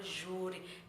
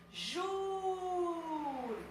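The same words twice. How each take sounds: First: Said in the usual way. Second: Júri with a long, high-held "Jú"; stressed syllable in Júri. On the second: Shown as a demonstration. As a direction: call out Júri, drawing the first syllable right out. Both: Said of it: "Cadê a sílaba tônica".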